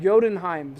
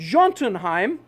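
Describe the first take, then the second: First: The name begins with a Y sound. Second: The name does not begin with a Y sound. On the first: The speaker calls it right. "like Yoda" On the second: The speaker calls it wrong. "So I messed it up"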